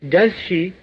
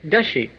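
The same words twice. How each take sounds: First: Each word is said fully and separately. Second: The words blend into one short reduced form.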